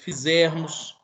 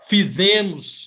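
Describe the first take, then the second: First: The R sound in the middle is pronounced. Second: The R sound in the middle is left out. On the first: The speaker calls it right. "no lugar de" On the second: The speaker calls it wrong. "omite o R"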